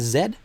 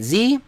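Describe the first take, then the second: First: The letter is said the Canadian way. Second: The letter is said the non-Canadian way.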